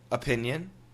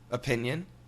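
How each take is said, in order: First: Relaxed, everyday American accent. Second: Relaxed, everyday American accent.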